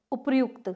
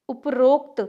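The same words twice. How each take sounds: First: उपर्युक्त with "yu" in place of "o"; correct form. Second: उपरोक्त with a long "o" after upr-; incorrect form. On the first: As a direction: say उपर्युक्त as "upar-yukt". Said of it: "तो क्या शुद्ध है". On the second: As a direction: say उपरोक्त as "up-rokt". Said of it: "ये अशुद्ध है". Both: Shown as a demonstration.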